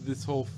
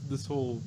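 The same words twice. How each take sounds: The two takes are said the same way.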